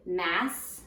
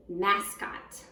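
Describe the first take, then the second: First: Mas- said alone as a chunk; Mas- isolated for spelling; first syllable split off. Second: Said in the usual way. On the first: Shown as a demonstration. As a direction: pull Mas- off the word mascot.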